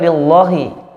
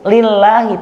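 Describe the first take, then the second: First: The L sound is heavy and thick. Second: The L sound is light and thin. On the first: The speaker calls it wrong. "tidak boleh" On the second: The speaker calls it right. "Harus tipis"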